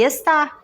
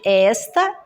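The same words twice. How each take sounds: First: "está" with TÁ stressed; stress on last syllable. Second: "esta" with ES stressed, open e; stress on first syllable. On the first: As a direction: land on the final syllable of "está". ("está" com a última sílaba tônica) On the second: ("esta" com a primeira sílaba tônica) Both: Shown as a demonstration. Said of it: "onde que está o acento tônico".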